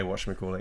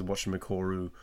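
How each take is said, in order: First: Said in the usual way. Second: "whatchamacallit" said low-key with its ending turned to "-coru"; Japanese learner's pronunciation. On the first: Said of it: "he doesn't say whatchamacallit". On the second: Shown as a demonstration. Quoting the comedian's hairdresser, "whatchamacallit" ending Japanese-style as "-coru". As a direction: say "whatchamacallit" softly, ending in r plus vowel instead of "-llit". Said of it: "he says whatchamacallit".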